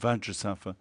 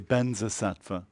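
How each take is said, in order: First: The first part is pronounced vajra. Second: The first part is pronounced benza. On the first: This is the original Sanskrit form. "the actual mantra is Vajra or Vajrasattva" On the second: This is how Tibetan speakers render it. "They say Benzasattva"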